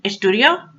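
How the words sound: The voice rises at the end. Should I study?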